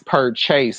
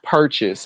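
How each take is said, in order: First: The second syllable is full, like 'chase'. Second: The second syllable is reduced, like 'chis'. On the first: The speaker calls it right. "it's purchase" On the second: The speaker calls it wrong. "Not purchase"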